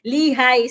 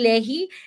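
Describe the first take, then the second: First: The name ends with an 'eye' sound. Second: The name ends with an 'ee' sound. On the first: The speaker calls it right. "ang basa lang naman dun sa kanyang pangalan ay Lihay" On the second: The speaker calls it wrong. "Hindi Lehi"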